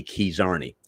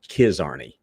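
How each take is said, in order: First: Keys Arney with a long ee in KEYS; Carney pronunciation. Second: Kiz Arney with a short i in KIZ; their pronunciation. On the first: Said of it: "in Carney, it would be". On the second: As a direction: say "Kiz Arney", first vowel short as in "his". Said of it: "as they pronounced it". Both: Shown as a demonstration.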